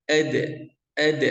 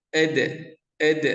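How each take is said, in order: No difference in how they are said.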